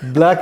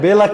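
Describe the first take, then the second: First: The word starts with a tight bl cluster. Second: A vowel is inserted between b and l. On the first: "ব্ল্যাক রে" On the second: "বেলাক করে ফেলি"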